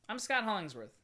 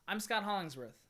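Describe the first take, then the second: Both takes have the same delivery.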